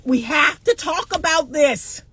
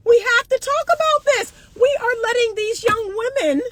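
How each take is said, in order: First: Said in the usual way. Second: Emphatic. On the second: Real, not acted. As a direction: press it hard, pitched up.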